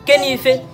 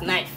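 First: The word starts with a sounded k. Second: The word starts with an n sound, no k. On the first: "I will put K inside. So me, I will pronounce this thing as Kenny Ife" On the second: "Now they went and silent K. They say K is not among"

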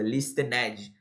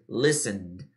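First: The ending is said with an audible vowel. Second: The ending is only a soft d sound. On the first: The speaker calls it wrong. "muita gente fala listened. A pior coisa" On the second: The speaker calls it right. "é bem suave o ed. ... não pronunciasse o E, só o D no final"

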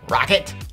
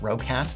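First: The name sounds like 'rock it'. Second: The name does not sound like 'rock it'. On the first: The speaker calls it right. "apparently it's pronounced Roccat, as in like, man, this thing is going to Roccat" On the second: The speaker calls it wrong. "I used to pronounce it Roccat"

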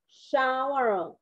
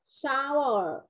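First: The sh sound and ow vowel are clear. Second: The same.

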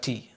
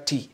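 First: The t sound is light, with a thin mouth. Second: The t sound is heavy, with a full mouth. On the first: The speaker calls it wrong. "so don't say ta, kasra, ti. Remember, ti is for ta" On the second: The speaker calls it right. "Say ta in a full mouth"

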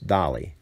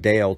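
First: The name is said the Norwegian way. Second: The name is read as an English word. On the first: The speaker calls it right. "but in Norway, it's Dali" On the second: The speaker calls it wrong. "It looks like Dale to us"

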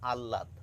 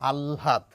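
First: A plain doubled l with no h sound. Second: The l is breathy, with h blended in. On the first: The speaker calls it wrong. "99% মানুষ বলে থাকেন আহ্লাদ ... আ ল লয়াকার দ" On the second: The speaker calls it right. "ল নয় ল সঙ্গে একটু হ মেশানো ... প্রমিত উচ্চারণ"

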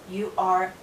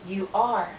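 Both takes have the same delivery.

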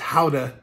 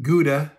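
First: The name is said with a Dutch pronunciation. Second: The name is said with an American pronunciation. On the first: The speaker calls it right. "I quickly learned that it was Gouda" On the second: The speaker calls it wrong. "with my American pronunciation"

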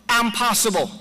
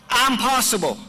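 The two takes are said the same way.

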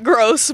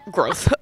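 First: The word ends with a plain s sound. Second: The word ends with a lisped th sound.

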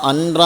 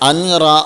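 First: A clear n sound comes before the r. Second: The same.

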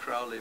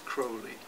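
First: The first syllable does not sound like 'crow'. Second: The first syllable sounds like 'crow'. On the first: This is the habitual, familiar pronunciation. The speaker calls it wrong. "I'm saying Crowley because that's how I remember from my childhood" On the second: This is the name's proper pronunciation. The speaker calls it right. "But in fact, it's Crowley"

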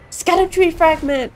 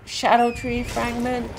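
First: The first word begins with an sk sound. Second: The first word begins with an sh sound.

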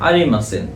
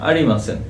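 No difference in how they are said.

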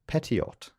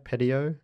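First: The final T is pronounced. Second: The final T is silent.

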